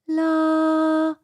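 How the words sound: The voice is airy with much breath. "much more air sound"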